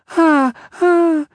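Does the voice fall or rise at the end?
fall. A falsetto cry ending with a falling exclamation.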